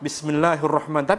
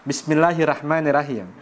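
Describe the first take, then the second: First: The r is said with a heavy, full sound. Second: The r is said with a light, thin sound. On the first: The speaker calls it right. "Kalau lagi formal bacanya ro" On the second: The speaker calls it wrong. "roknya dibaca ra"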